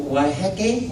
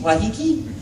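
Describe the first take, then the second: First: "Waiheke" said slowly, ending in eh-keh; trying a pronunciation. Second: "Waiheke" said higher, with ee vowels; second try at pronunciation. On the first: Visitor telling locals about an island, trying "Waiheke" with eh vowels. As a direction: try "Waiheke" as why-HEH-keh, tentatively. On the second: Visitor checking an island name, trying "Waiheke" higher with ee vowels. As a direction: try "Waiheke" as why-HEE-kee, pitched up. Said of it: "we went to Waiheke". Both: Real, not acted.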